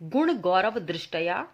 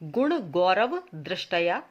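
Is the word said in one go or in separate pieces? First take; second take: one go; separate pieces. First: The word is said smoothly in one go. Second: The word is broken into three separate pieces.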